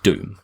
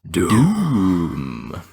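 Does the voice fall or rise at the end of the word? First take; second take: fall; rise. First: The pitch stays level or falls on the word. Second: The pitch rises on the word like a question. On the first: The speaker calls it wrong. "You don't say it as like Doom" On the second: The speaker calls it right. "It's oh with the question mark"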